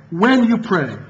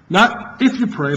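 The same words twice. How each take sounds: First: When stressed first, then you pray. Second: If stressed and drawn out, slow. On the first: Preacher insisting to the congregation on when, stressing when. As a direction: hit when firmly. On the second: Preacher correcting the congregation's reading, stressing if. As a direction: lean on if to set it against when. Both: Shown as a demonstration. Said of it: "not if ... but when".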